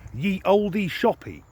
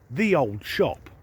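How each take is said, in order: First: The first word begins with a 'y' sound. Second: The first word begins with a 'th' sound. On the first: The speaker calls it wrong. "most people would pronounce this sign" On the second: The speaker calls it right. "It's actually pronounced"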